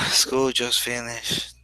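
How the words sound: It is said in a sad, disappointed tone. The end of school is bad news. "So I'm sad"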